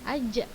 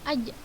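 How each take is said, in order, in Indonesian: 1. Konsonan itu terdengar seperti bunyi ch. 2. Konsonan itu tidak memiliki bunyi seperti ch. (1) "tidak terdengar cehnya ... salah" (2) "yang benar adalah ... Dengar cahnya ustazah? Tidak kan?"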